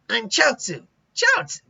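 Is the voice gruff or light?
gruff. It is a gruffer, rougher character voice.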